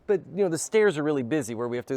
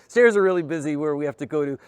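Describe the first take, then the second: First: Said in the usual way. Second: "Stairs" pushed out louder, with a knowing, ironic weight; ironic emphasis. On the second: Retold or imitated. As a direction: lean on "Stairs" as an obvious fib. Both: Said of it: "there's, like, one person on the stairs".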